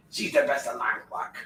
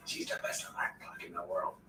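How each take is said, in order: First: Said in the usual way. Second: Soft whisper, no voice. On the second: Real, not acted. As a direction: breathe the words out. Repeated in whisper.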